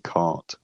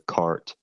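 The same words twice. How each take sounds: First: There is no r sound at all. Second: The r sound is clearly pronounced. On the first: This is the modern British way of saying it. "I say cart without a r sound there" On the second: This is the older and the American way of saying it. "the r would have been pronounced, so cart"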